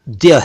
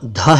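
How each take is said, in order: First: It is a plain d followed by y. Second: It is a breathy dh with no y. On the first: The speaker calls it right. "ये तो द्य है" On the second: The speaker calls it wrong. "ये अक्षर ना ध है"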